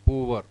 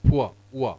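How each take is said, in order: First: "poor" as two syllables, POO-var; "poor" the way most learners say it, POO-var; common mispronunciation. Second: "Poor" as a gliding PUA, no final r; "Poor" said pua, then just "ua"; vowel glide. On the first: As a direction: say "poor" with a w in the middle and final r. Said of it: "Most of us say it as". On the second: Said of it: "That vowel glide sound". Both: Shown as a demonstration.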